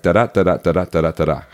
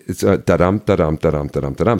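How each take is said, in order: First: Even da-da beats, falling away at the end; sonnet rhythm. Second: Da-DUM with the weight on the second beat; iambic beat. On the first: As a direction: tap out the beat in even pairs. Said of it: "it has to go like". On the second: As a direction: stress the dum, not the da. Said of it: "there's actually". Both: Shown as a demonstration.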